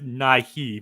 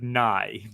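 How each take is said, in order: First: The name ends with an added 'ee' syllable. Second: The name is one syllable rhyming with 'high'. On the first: The speaker calls it wrong. "I think you guys are trying to add next "nigh-he,"" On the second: The speaker calls it right. "I think it's just pronounced like "nigh,""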